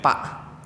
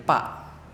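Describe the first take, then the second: The two takes are said the same way.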